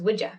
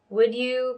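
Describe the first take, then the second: First: Would is stressed; you is reduced to ya. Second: The word you is said in full.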